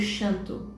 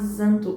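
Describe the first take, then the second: First: The name starts with an sh sound. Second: The name starts with a z sound.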